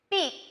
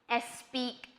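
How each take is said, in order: First: The word starts directly with the s. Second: An extra vowel is said before the s. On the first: The speaker calls it right. "Now we're going to say them correctly" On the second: The speaker calls it wrong. "those words that I said you might have some trouble with"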